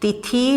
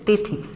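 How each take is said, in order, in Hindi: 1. अंतिम स्वर लंबा है। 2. अंतिम स्वर छोटा है। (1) "तिथि नहीं बोला जाता है" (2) "छोटी का प्रयोग होगा"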